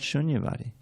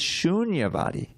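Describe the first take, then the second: First: The first vowel is short. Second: The first vowel is held long. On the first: The speaker calls it wrong. "But it's not shunyavadi" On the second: The speaker calls it right. "It's shunyavadi. ... take care of your longs and shorts"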